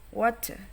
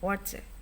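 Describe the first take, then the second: First: It is said in an American accent. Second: It is said in an Australian accent. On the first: "untuk American accent maka akan menjadi water" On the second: "Australian accents ya. Maka mereka akan bilang water"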